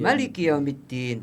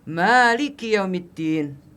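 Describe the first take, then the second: First: The first vowel of Maliki is kept short. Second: The first vowel of Maliki is held long. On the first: God is the king of the Day of Judgment. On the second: God is the owner of the Day of Judgment. "dibaca panjang"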